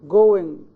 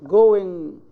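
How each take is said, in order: The two takes are said the same way.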